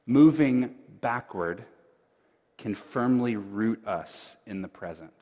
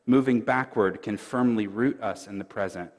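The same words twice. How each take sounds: First: "moving backward" slow, with a pause before "can firmly root us in the present"; slow proclaimed emphasis. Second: Said in the usual way. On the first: Shown as a demonstration. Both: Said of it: "Let me say that just one more time".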